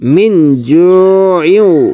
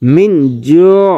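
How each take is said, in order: First: The word carries on with an extra ending. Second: The word ends abruptly on a stop. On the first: The reader joins it to the next word. "যদি আপনি মিলাই পড়েন তাহলে এমন ভাবে পড়তে হবে" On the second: The reader pauses at this point. "যদি অক্ফ করেন তাহলে মিন জু"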